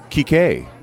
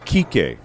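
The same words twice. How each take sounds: First: The stress is on the final syllable. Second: The stress is on the first syllable. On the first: This is the name's actual form. "got that accent on the the final E" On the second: This is how everyone says it.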